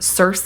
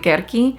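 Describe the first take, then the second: First: The name begins with a soft S sound. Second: The name begins with a hard K sound. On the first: This is the common everyday pronunciation. "A lot of people pronounce her name Circe" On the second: This is the technically proper original pronunciation. "I think the proper pronunciation is technically Kerki"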